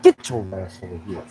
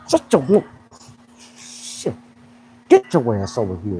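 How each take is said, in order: First: Lower, softer gruff grab-him voice; quietly menacing coach; mock gruff coach. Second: Low, stern coach's bark; a hint of a drill coach; gruff coach. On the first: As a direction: growl it like you're collaring him. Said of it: "just be like". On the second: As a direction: call him over like a tough coach. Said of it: "if I'm be a coach".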